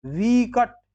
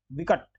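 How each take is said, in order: First: विकट as high "veekat"; wrong long ee. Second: विकट as a quick "vikat"; short i. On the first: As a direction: stretch वि in विकट. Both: Shown as a demonstration. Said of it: "फिर नहीं".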